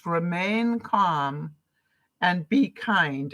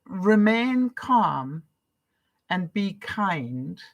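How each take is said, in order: First: Slow, deliberate mantra; calm, measured motto. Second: Slow, deliberate repeat of the rule; calm, measured recitation; slow mantra. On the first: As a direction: say it like a personal motto, slowly. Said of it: "my new mantra". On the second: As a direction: let the words sink in slowly. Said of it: "When you hear that". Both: Shown as a demonstration.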